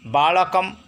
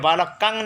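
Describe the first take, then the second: First: The word ends with an m sound. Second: The word ends with an ng sound. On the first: The speaker calls it right. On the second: The speaker calls it wrong.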